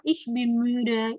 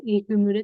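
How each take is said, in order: First: Each word slow and spaced for learners; slow model phrase. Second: Said in the usual way. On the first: Shown as a demonstration. Teacher to class, first model of the phrase, very slow. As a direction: drill it slowly so the class can copy. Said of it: "teacher models the phrase". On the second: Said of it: "teacher repeats before translating".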